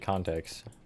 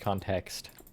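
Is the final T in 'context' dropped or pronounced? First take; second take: dropped; pronounced. First: The final T sound is dropped. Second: The final T sound is pronounced. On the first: The speaker calls it wrong. "I just don't say it with the T" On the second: The speaker calls it right. "Context with a T at the end"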